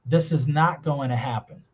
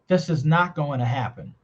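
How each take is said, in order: The two takes are said the same way.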